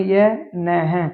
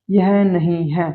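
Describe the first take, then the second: First: Slow यह न है with the short न in place of नहीं; slow literal reading. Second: Slow, careful यह नहीं है with नहीं said in full; slow full reading. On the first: Teacher sounds out the shorthand outline slowly. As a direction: sound out यह न है just as the outline is written. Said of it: "यह न है मतलब यह नहीं है". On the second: Teacher reads the full phrase slowly for students. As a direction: read यह नहीं है word by word, slowly. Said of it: "तो कैसे पढ़ेंगे". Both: Shown as a demonstration.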